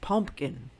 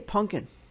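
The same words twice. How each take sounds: First: It is said as pumpkin, with an m sound. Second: It is said as punkin, with an n sound. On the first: This is the standard way of saying it. "It's pumpkin" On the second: This is the speaker's own habitual way of saying it. "I also say pumpkin, P U N K I N"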